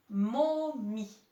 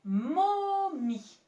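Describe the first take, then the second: First: Said in the usual way. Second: Momie dragged out, higher and louder; sounded-out word. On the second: Shown as a demonstration. Teacher dictating a word to the class, sounding it out. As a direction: spell momie out by sound, syllable by syllable. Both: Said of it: "C'est le mot".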